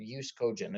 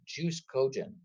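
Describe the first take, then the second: First: The first word starts without a J sound. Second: The first word starts with a J sound.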